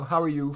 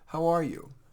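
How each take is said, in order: First: It is said in a quick, offhand way. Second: It is said in a warm, caring way.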